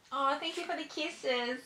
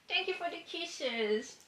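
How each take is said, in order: First: Soft, higher cooing to the dog; softer, higher sing-song pet voice. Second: Slower, softer, higher coo to the dog; slow, soft, high sing-song pet voice. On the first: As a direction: gush over the puppy's kisses, softly. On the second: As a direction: stretch it out sweetly for the puppy. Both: Real, not acted. Cooing to her dog Franklin.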